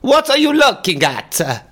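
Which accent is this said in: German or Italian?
Italian. It is said in a put-on Italian accent. "That was Italian"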